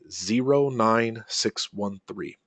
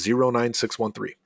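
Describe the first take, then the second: First: The number is said slowly and deliberately. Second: The number is said at a normal pace.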